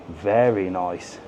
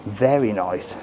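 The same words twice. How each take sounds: The two takes are said the same way.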